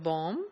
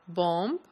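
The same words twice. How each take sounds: First: The word ends on the m sound. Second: A b sound is heard at the end. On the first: It follows the standard pronunciation. The speaker calls it right. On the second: It follows the spelling. The speaker calls it wrong.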